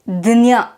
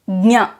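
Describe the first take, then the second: First: It is said as dnya, with a d sound first. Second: It is said as nya, with a g sound added. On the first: This is how it is said in Maharashtra. "in Maharashtra people pronounce it as Dnya. They add the D sound" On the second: This is how it is said in the south. "In the south we pronounce it as Nya. We say the Nya, but we also add the G sound there"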